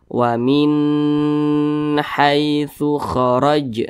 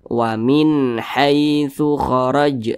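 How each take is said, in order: First: The n sound is nasalized and held long. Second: The n sound is clear and short. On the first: The speaker calls it wrong. "jangan didengungkan seperti ini" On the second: The speaker calls it right. "dibaca jelas, pendek saja. Jangan ditahan"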